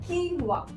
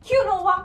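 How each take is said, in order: First: It is said with two syllables, keen-wah. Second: It is said with three syllables, kyoo-no-wah.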